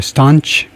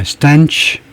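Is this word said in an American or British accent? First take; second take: British; American. First: It is said with a British pronunciation. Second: It is said with an American pronunciation. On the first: "영국식은 이제" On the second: "미국식은 이제"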